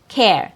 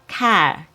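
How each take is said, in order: First: The vowel is a short E before R. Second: The vowel is a short A before R. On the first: The speaker calls it right. "It has a short E sound" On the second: The speaker calls it wrong. "it's not car"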